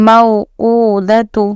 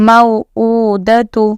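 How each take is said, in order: Both takes have the same delivery.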